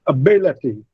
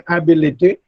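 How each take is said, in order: First: "ability" said a-BIL-ity; stress on second syllable. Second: "ability" wrongly said AB-i-li-ty; mispronounced stress. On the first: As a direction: reduce the first vowel of "ability", stress BIL. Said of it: "it's ability". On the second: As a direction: open "ability" with a full, stressed AB. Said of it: "but it is not". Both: Shown as a demonstration.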